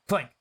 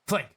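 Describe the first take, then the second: Both takes have the same delivery.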